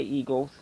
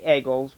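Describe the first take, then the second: First: "eagles" with a long ee; "eagles" said softer, first vowel ee; local pronunciation of eagles. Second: "eagles" said as "eggles"; short e at the start of "eagles"; "eagles" with egg as its first sound; wrong pronunciation of eagles. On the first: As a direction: say "eagles" starting on ee. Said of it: "We say "eagles". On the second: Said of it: "we don't say". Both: Shown as a demonstration.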